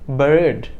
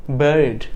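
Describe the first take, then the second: No difference in how they are said.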